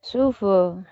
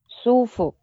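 First: It is said in Guizhou dialect. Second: It is said in standard Mandarin.

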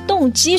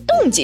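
First: The second syllable has a high level tone. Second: The second syllable has a sharp falling tone. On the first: The speaker calls it right. "应该是" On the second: The speaker calls it wrong. "而不是"

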